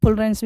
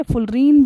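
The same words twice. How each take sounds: First: "fullerenes" ending like "rens", with an e vowel. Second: "फुलरीन" ending in a long "reen"; fullerene with EEN. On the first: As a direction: say "fullerenes" as "ful-rens", not "reen". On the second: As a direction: say "फुलरीन" with a long ee in the last syllable. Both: Shown as a demonstration. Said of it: "कुछ भी आप इसको pronounce कर सकते हैं".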